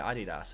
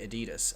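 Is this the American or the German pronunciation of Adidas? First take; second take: German; American. First: It is said the German way. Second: It is said the American way. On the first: "the Germans say Adidas" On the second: "a lot of Americans say Adidas"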